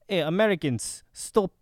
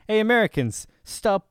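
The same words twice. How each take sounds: First: It is spoken in a Russian accent. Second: It is spoken without a Russian accent.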